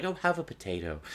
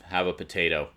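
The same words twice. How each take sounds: First: Soft, friendly mock offer; pleasantly and quietly, no edge. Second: Understated, pointed offer; politely worded, curtly meant; veiled shut-up. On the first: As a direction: imitate a genial host offering food. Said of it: "it was very pleasant". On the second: Retold or imitated. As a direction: offer it as a veiled order to stop talking. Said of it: "the implication was, "Shut your noise hole".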